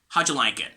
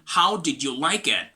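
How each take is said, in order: First: The words are contracted and run smoothly together. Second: Every word is said fully and separately. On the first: "It's gonna be something like" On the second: "So instead of saying"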